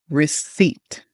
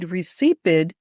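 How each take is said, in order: First: No P sound is pronounced in the word. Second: A P sound is pronounced in the word. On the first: The speaker calls it right. "that P is silent. ... It should sound like this" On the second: The speaker calls it wrong. "If you said recipid ... you're wrong"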